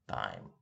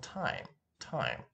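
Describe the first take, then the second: First: TIME with a Russian accent, no puff after the t; Russian-accented TIME, unaspirated t; Russian-accented English. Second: TIME with a puff of air after the t; crisp English TIME, breathy release on the t; aspirated English T. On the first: Teacher showing how Russians say it, Russian accent on TIME. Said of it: "when people speak English with a Russian accent". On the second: Teacher showing learners English aspiration, aspirated T in TIME. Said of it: "in English we have some aspiration". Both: Shown as a demonstration.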